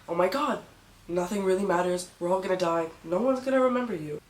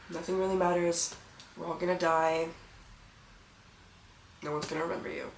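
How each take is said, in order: First: It is said in an excited, liberated tone. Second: It is said in a resigned, hopeless tone.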